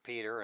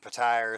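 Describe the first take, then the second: First: The name is said like 'Peter'. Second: The name is said like 'Pattire'. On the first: "some people pronounce it pronounce it Peter" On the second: "Some people pronounce it Pattire"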